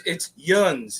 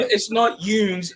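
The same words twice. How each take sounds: First: Yuns with a short uh sound, like buns; right Yuns. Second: Yoons with a long oo sound; wrong Yoons. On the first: Correcting a friend, short Yuns like buns. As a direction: clip Yuns short like sun. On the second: Correcting a friend, saying the wrong Yoons first. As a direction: stretch Yoons out like a long moon vowel. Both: Shown as a demonstration.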